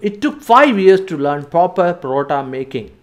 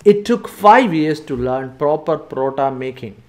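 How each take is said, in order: Both takes have the same delivery.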